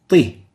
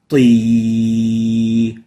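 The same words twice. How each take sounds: First: The vowel is cut short. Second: The vowel is held long. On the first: "if we shorten the ya, it will sound like the kasra" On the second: "a ta plus a ya"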